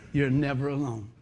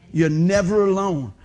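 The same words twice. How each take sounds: First: Said in the usual way. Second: "never" said louder and slower; stress on never. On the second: Shown as a demonstration. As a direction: lean hard on "never". Repeats line with more force.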